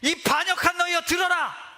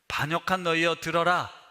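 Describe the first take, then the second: First: It is said with loud, open anger. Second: It is said calmly, holding the anger back.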